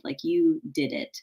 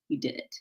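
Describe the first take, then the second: First: Said in the usual way. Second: You did it, hushed and touched; emotional whispered praise; soft, moved. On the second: Real, not acted. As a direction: drop it low and tender, a little teary. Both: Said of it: "I'm getting a little teary-eyed".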